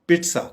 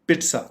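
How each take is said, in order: The two takes are said the same way.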